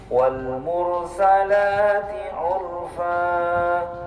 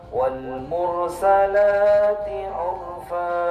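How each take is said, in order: No difference in how they are said.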